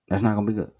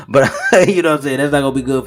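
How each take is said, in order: First: Said in the usual way. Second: Laughing through the words, louder and quicker. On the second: Real, not acted. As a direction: chuckle it out at the absurdity. Laughs at grim scenario.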